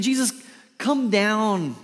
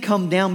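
First: High, loud call up to a platform; calling down loudly. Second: "Come down" as a pleading request to come down the hill; earnest request. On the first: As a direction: shout "come down" up to someone above. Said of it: "He's not saying". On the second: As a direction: ask him sincerely to come down. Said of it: "he's saying". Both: Shown as a demonstration.

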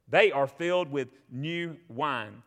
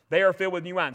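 First: Slow, lower-pitched mocking quote. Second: Said in the usual way. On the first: Preacher quotes the doubters at Pentecost, slow and mocking. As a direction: draw out the jeer, low and slow. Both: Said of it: "others mocking said".

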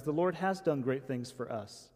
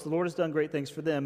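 First: "has" stressed in firm confirmation, falling away after it. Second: Said in the usual way. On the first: Shown as a demonstration. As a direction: lean on "has", making it the peak of the line. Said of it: "Emphasis mine".

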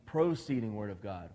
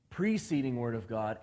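First: "proceeding" with a long, emphasized first syllable "pro"; stress on PRO. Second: "preceding" with its first syllable stretched and set apart; stress on PRE. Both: Shown as a demonstration. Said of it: "there's a big difference between".

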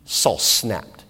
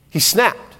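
First: "Saul snapped." said lower and softer, held back; a hushed, ominous "Saul snapped."; hushed build-up. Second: "He snapped." with a rising lift on "snapped"; a pointed "He snapped."; stress on snapped. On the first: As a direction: drop the voice low and soft on "Saul snapped.". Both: Shown as a demonstration.

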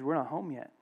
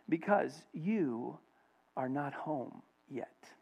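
First: Said in the usual way. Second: Very slow, soft and measured; hushed divine answer. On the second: Retold or imitated. The Lord answering the missionary in his ear, hushed. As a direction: let it fade gently, word by word. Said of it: "the Lord whispers in his ear".

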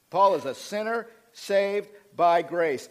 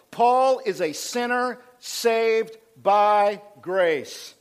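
First: Said in the usual way. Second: Loud and very slow, phrase by phrase; slow, emphatic proclamation. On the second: Real, not acted. Preacher telling the church who Paul is, slow emphatic proclamation. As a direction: spell out "sinner saved by grace" with weight on each word.

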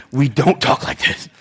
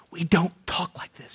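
First: Low, soft voiced scolding; quietly disapproving, voiced; low reprimand. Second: Stern scolding whisper; hushed, disapproving whisper; whispered reprimand. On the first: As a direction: keep it down and stern, like correcting a child. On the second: Acted. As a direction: whisper it like a discreet telling-off. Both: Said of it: "That's not what reprimand means".

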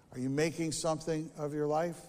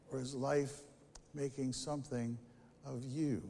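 First: "making" lifted on a rising question; sermon question, "making" rising; stress on making. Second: "making" dropped low and soft; preacher turns the question, much softer; quiet reversal. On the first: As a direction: lean into "making" as the question opens. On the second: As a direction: hush the turn, "making something of you" softly. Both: Acted. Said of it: "rhetorical contrast".

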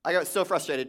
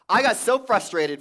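First: Said in the usual way. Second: Louder and higher on 'I got so frustrated'; emphatic. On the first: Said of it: "I got so frustrated, folks". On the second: Retold or imitated. Pastor telling the congregation about the copier, loud and exasperated. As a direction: punch it with exasperation. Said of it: "I got so frustrated, church".

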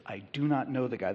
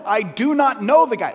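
First: Said in the usual way. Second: Much higher and louder, hit "know" hard in denial; emphatic denial. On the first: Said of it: "The third time, he is so emphatic". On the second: Retold or imitated. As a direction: deny it with everything, punching "know". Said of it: "he is so emphatic".

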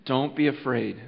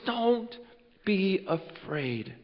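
First: Gentle reassurance. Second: Reassuring angel. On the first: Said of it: "if those were his first words". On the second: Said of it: "this angel goes". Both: Acted.

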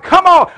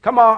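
First: High, loud sports-fan shout. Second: Said in the usual way. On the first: Retold or imitated. Pastor recalls cheering Gators on TV, shouting. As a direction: yell it at the game on TV. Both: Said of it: "I'm shouting".

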